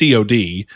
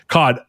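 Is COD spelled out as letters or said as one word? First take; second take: letters; one word. First: It is spelled out as three separate letters. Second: It is said as one word, like the fish. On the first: This is how people actually refer to the game. The speaker calls it right. "people regard it as COD" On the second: This is the reading that makes it the name of a fish. The speaker calls it wrong. "instead of COD"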